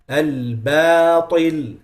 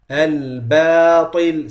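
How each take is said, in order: The two takes are said the same way.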